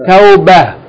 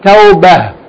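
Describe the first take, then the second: First: The word ends with a soft h sound. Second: The word ends with a soft h sound.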